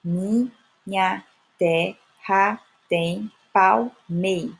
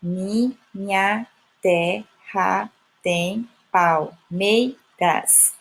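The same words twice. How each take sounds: First: Very slow, gaps between syllables, stopping at palmei; measured scansion that drops the last syllable of palmeiras; syllable by syllable, cut short. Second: Very slow, each syllable set apart; chopped, measured scansion of the whole line. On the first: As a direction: count out each syllable up to the stressed MEI. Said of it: "eu só contabilizo até aí". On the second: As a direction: count out every syllable with a clear gap. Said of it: "vou perceber que tem oito sílabas". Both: Shown as a demonstration.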